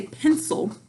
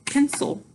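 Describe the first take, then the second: First: Said in the usual way. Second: "pencil" in two beats, pen, sul; slow "pencil" down, breaking after pen; split into syllables. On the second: Shown as a demonstration. Teacher slowing down to spell, "pencil" split in two. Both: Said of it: "if I slow down".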